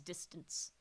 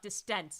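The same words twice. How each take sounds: First: The stress is on the first syllable. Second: The stress is on the second syllable. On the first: The speaker calls it right. "it's that first syllable that actually needs like that's the focus" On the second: The speaker calls it wrong. "it's not distance"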